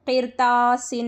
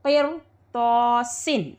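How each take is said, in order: First: क़िरतासिन with a light, thin R in "qir"; thin R, wrong reading. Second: क़िरतासिन slow and drawn out, thick R and heavy long "to"; full R and T. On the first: Teacher warning students how not to read, क़िरतासिन with thin R. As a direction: read क़िरतासिन with the R kept fine, not heavy. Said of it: "रॉ बारीक हो जाता है इसमें". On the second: Teacher modelling the correct reading for students, क़िरतासिन slow and heavy. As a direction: stretch क़िरतासिन with both R and T full. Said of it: "हुरूफ़ मुस्तालिया को भी पुर करके पढ़ेंगे". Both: Shown as a demonstration.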